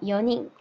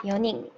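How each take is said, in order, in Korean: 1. 가운데 ㄴ 소리는 한 번 나요. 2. 가운데 ㄴ 소리는 한 번 나요.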